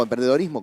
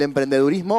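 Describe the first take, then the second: First: "emprendedorismo" said with an "o" before "rismo"; "emprendedorismo" as a softer aside, the -dor- variant. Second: "emprendedurismo" said with an "u" before "rismo"; "emprendedurismo", the -dur- variant rather than -dor-. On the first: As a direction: say "emprendedorismo" with an oh sound in -dorismo. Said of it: "como digan, como nos pongamos de acuerdo". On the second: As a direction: say "emprendedurismo" with an oo sound in -durismo. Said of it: "o emprendedorismo, como digan". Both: Shown as a demonstration.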